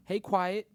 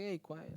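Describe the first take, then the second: First: Louder, higher call. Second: Said in the usual way. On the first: Pretend. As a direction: call out to her teasing. Greeting new girl.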